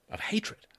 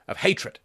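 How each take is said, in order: First: Hushed whisper on "Of hatred". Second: Said in the usual way. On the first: Real, not acted. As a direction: breathe "Of hatred" out as a soundless whisper.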